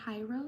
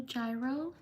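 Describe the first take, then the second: First: Hyro said HY-roh; alternative pronunciation. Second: Gyro said JY-roh; Gyro as JY-roh, like "jai" plus "row"; first guess at pronunciation. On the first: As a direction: say Hyro with an h sound at the start. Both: Shown as a demonstration. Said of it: "sorry if I mispronounce your name".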